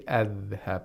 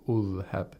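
First: The word begins with an a vowel. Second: The word begins with a u vowel. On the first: "We don't say adhhab" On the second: "We don't say adhhab or ulhab"

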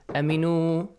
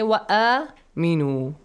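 First: The vowels are cut short. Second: The vowels are held long. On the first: The speaker calls it wrong. "Do not say aminu" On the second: The speaker calls it right. "Both long sounds, okay? Long vowel sounds"

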